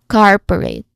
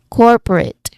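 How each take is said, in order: First: The first vowel sounds like the vowel in car. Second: The first vowel sounds like the vowel in fork. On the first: The speaker calls it wrong. "be careful not to make it sound like the R in car" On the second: The speaker calls it right. "It should be or, not R"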